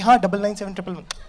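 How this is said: It is said in an excited voice.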